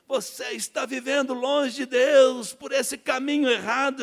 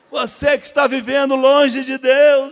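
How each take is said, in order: First: Slow, loud preaching, drawn out; preacher's sermon. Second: Much louder, high, slow preaching shout; preacher's altar call. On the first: Preacher calling out the sinner, slow loud preaching. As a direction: preach it slowly to the crowd. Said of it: "ele começou a falação dele". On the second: Preacher calling out the sinner, booming slow shout. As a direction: boom it to the whole church. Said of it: "me chamou no final". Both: Retold or imitated.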